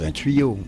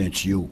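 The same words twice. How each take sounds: First: It has a standard international French pronunciation. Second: It has a local Quebec French pronunciation. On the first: This is how it should be said for everyone. The speaker calls it right. "mais il faut dire un tuyau" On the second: This is how people say it locally. The speaker calls it wrong. "Ici, on dit un tuyau"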